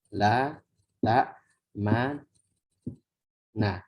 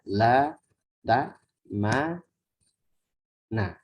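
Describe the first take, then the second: No difference in how they are said.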